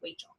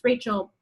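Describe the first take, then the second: First: The name is said with a child's speech error. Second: The name is pronounced clearly and normally. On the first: The speaker calls it wrong. "she needed to go to speech therapy when she was in first grade because she said Rachel" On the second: The speaker calls it right. "her name's Rachel"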